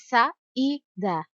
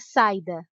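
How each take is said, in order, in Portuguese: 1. O i é claro e forte, é uma sílaba própria. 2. O i é fraco e rápido, deslizando para o a. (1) "Pronunciamos o som do I com clareza, em alto e bom som" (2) "Se o som do I fosse mais fraco e mais rápido"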